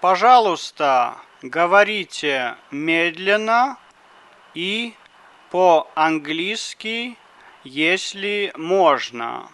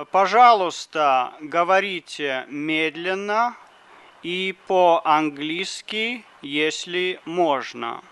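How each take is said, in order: Both takes have the same delivery.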